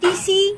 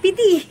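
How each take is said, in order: First: The middle consonant is an s sound. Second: The middle consonant is a t sound. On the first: The speaker calls it right. "বল পিসি বল" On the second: The speaker calls it wrong. "পিতি না"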